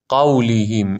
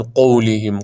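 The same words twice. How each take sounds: First: قولهم with a clear "qaw"; correct open vowel. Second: قولهم with "qow" for "qaw"; first vowel of قولهم pulled toward o; wrong rounded vowel. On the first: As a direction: say قولهم as "qawlihim". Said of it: "این درسته". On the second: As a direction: say قولهم as "qowlihim". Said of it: "نخوین قولهم". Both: Shown as a demonstration.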